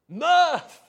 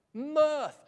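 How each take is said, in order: First: Mirth! bellowed very loud and high, falling at the end; full-throated shout of joy at the congregation. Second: Mirth said loud and falling, held out; emphatic mirth. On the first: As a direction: blast Mirth out like an unexploded bomb going off. Preacher bursts out the psalm's word. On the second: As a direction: lean on the word Mirth with relish. Preacher savouring the key word. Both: Real, not acted.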